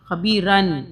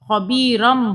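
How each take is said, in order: First: The word ends with an n sound. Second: The word ends with an m sound. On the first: The speaker calls it wrong. "नून की आवाज़ लास्ट में आती है खबीरन" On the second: The speaker calls it right. "हमने मीम की आवाज़ को निकालना है"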